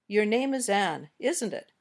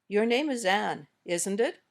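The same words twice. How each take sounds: First: The voice falls at the end. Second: The voice rises at the end.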